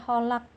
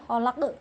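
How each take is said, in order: First: The final q ends without a strong bounce. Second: The final q ends with a strong bounce. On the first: The speaker calls it wrong. "Tidak boleh dibaca khalaq, itu tidak boleh" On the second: The speaker calls it right. "harus dengan getaran yang kuat"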